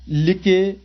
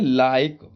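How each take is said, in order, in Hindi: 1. आखिरी 'e' एक अतिरिक्त सिलेबल के रूप में बोला जाता है। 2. आखिरी 'e' साइलेंट होता है, शब्द एक ही सिलेबल का रहता है। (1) "ऐसे नहीं पढ़ेंगे" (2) "लास्ट में जो ई होता है भैया वो साइलेंट होता है"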